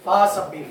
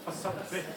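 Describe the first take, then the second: First: The first vowel is drawn out long. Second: The first vowel is kept short. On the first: The speaker calls it wrong. "आमतौर पर जो गलती पाई जाती है" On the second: The speaker calls it right. "फा के ऊपर जबर है।"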